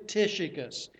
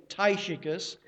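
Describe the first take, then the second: First: Tychicus with a short i, TISH-ih-kus; usual pronunciation. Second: Tychicus with a long i, TIE-shi-kus; alternative pronunciation. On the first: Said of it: "I've always been taught Tychicus". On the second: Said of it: "or as some books say". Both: Shown as a demonstration.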